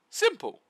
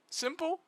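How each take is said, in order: First: High and loud, triumphant; emphatic answer. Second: High, rising question, teasing; mock question. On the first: Pretend. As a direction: slam the answer down, case closed. Answers own mock question loudly. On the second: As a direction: ask it as if it were a tricky riddle. Mock question answered by herself.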